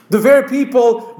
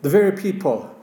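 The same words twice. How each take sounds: First: The word very lifted and hit harder; stress on very. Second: Said in the usual way. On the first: Shown as a demonstration. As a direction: lean into very, voice rising.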